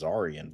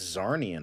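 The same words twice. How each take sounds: First: "Zarian" as Zar-ee-an; corrected pronunciation. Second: "Zarnian" as Zar-nee-an; rejected pronunciation. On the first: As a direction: say "Zarian" with no N after the R. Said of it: "I think it's Zarian". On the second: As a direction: say "Zarnian" with an N before the ending. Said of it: "I don't think it's Zarnian". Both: Shown as a demonstration.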